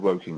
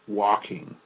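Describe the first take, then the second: First: The first vowel sounds like 'woe'. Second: The first vowel sounds like 'walk'. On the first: The speaker calls it right. "It's called Woking" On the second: The speaker calls it wrong. "and not Walking"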